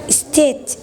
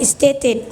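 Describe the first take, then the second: First: The word ends without a final -ed syllable. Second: The word ends with a final -ed syllable. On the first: The speaker calls it wrong. "he said state" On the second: The speaker calls it right. "instead of saying stated"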